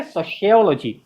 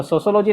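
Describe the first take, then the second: First: SOCIOLOGY as so-she-OL-o-jee; correct pronunciation. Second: SOCIOLOGY as so-so-lo-jee; wrong pronunciation. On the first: Teacher answers for students, सोशियोलॉजी as "so-she-ol-o-jee". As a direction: say सोशियोलॉजी with SH, falling. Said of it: "क्या बोलेंगे?". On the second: Teacher names the form to avoid, सोशियोलॉजी as "so-so-lo-jee". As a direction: say सोशियोलॉजी with plain S twice. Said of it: "ना बोल के". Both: Shown as a demonstration.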